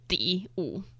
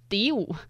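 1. 第一个字是低降调。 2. 第一个字是升调。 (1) "但是其实应该要念第五" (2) "所以就变成第五"

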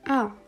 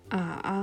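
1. Die Tonhöhe fällt stark von hoch auf tief. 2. Die Tonhöhe sinkt tief, dann steigt sie. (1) "der vierte Ton komplett fallend" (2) "der dritte Ton zuerst fallend und dann steigend"

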